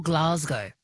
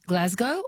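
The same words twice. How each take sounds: First: "Glasgow" with a long AH, "GLAHZ-go"; unflattened "Glasgow", drawn to "Glahz-go"; long open vowel. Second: "Glasgow" with a short flat A, "GLAZ-go"; Australian flattened "Glasgow", short A; flattened vowel. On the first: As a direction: say "Glasgow" with the A of "father". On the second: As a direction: say "Glasgow" with the A of "jazz". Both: Shown as a demonstration. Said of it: "We do like to flatten things".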